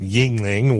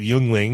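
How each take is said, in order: First: The first syllable is said as a plain 'ying'. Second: The first syllable is said with a 'yuen' sound. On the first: This is how people locally say it. "Everyone around here pronounces it Yingling" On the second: This is closer to how the spelling suggests. "I'm going to call it Yuengling because that, that actually sounds closer to what it should be"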